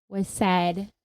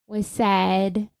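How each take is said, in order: Both takes have the same delivery.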